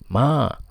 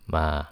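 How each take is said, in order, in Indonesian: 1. Nadanya tinggi dan datar. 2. Nadanya rendah, pendek, dan lembut. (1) "dengan nada pertama yang tinggi, suara tinggi" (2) "nada suara rendah dan lembut"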